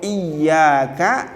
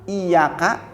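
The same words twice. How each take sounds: First: The y sound is held long and doubled. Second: The y sound is short and single. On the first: Only to You do I worship. The speaker calls it right. "hanya kepada engkau ya Allah saya menyembah" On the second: Only to your sunlight do I worship. The speaker calls it wrong. "Ya-nya enggak ditasdid, ya-nya enggak didobel"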